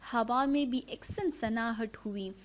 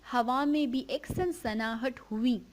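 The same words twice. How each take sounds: No difference in how they are said.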